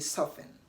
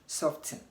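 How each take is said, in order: First: The T sound is left out completely. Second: The T sound is pronounced in the middle. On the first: The speaker calls it right. "say soften" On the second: The speaker calls it wrong. "you don't say soften"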